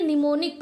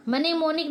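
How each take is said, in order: First: निमोनिक starting on N, "ni-monik"; silent M. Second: मनेमोनिक with M sounded, "ma-ne-monik"; wrong pronunciation. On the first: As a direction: drop the opening M in निमोनिक. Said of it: "निमोनिक पढ़ेंगे". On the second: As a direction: add a "ma" opening to मनेमोनिक. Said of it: "नहीं पढ़ेंगे". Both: Shown as a demonstration.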